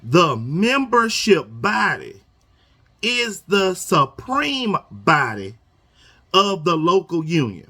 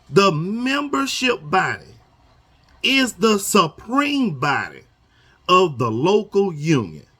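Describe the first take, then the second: First: Very slow, stretching supreme; even slower deliberate reading. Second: Slow, word by word, like reading a rule aloud; slow deliberate reading. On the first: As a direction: drag it out to drive the point home. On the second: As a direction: read it slowly so every word lands. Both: Shown as a demonstration. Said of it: "I'ma read this slow".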